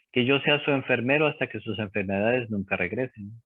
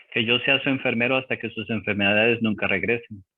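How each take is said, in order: No difference in how they are said.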